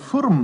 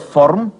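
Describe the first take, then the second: First: The vowel sounds like a u. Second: The vowel sounds like an o. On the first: This is how the dialect says it. "eine Furm machen" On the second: This is the standard form. "aus der Form"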